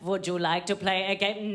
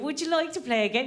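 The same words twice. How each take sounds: First: It is said in a German accent. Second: It is said in an Irish accent. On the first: The game sounds threatening. "if a German person says that" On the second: The game sounds like fun. "if an Irish person said that to you"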